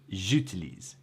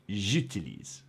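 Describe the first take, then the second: The two takes are said the same way.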